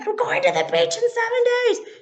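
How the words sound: It is said as a loud yell.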